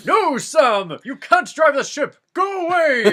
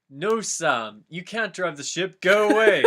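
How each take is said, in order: First: Much higher, loud laughing yell; hammed-up wizard screeching at Sam; Gandalf shouting. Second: Raised, louder wizard voice shooing Sam away; a scolding Gandalf, rising as he goes; Gandalf yelling. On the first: Gandalf redoes his line, shrieking at Sam to leave. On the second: Acted. Gandalf shooing Sam off the ship, rising yell.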